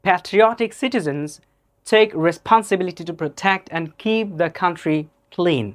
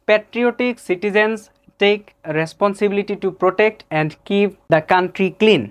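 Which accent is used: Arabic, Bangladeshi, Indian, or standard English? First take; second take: standard English; Bangladeshi. First: It is spoken with a standard English accent. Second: It is spoken with a Bangladeshi English accent. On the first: "accurate প্রোনাউন্সিয়েশনটা" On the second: "আমার বন্ধু লিয়াকত আলী ভার্সনের reading"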